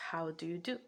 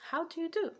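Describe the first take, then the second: First: Said in the usual way. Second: High-pitched, formal quoted greeting; mock Northern American. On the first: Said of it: "to represent the phrase". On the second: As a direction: jump way up for a prim Northern greeting. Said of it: "a Northern America will s-, say".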